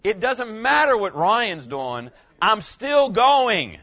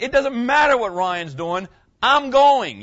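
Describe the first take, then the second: First: Slow, loud, emphatic declaration; a pastor's mock yell, drawn out for emphasis; retold yell. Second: Loud, rising to a high, forceful finish; reenacting his yell at home, louder at the end; retold yell. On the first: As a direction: proclaim it slowly, getting louder. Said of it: "And I yelled". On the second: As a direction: bark it back, the last words highest and loudest. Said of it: "and I was like".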